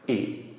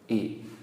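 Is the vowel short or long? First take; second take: short; short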